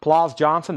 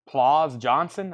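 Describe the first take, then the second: First: "Plaus" with a clear aspirated P at the start; P sounded. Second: "Plaus" said as "laus" with no P sound, slowly; P left silent. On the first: Host corrects himself on the name, a bit louder. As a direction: hit the P in "Plaus" crisply. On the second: Host stumbles over an unfamiliar name, tentative and slow. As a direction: drop the P in "Plaus", like "lauz". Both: Shown as a demonstration. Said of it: "I guess you say the P".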